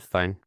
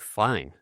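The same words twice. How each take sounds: First: The word is said flatly and without enthusiasm. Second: The word is said warmly and enthusiastically. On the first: She looks merely acceptable. "it doesn't mean nearly as much" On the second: She looks great. "meaning she looks great today"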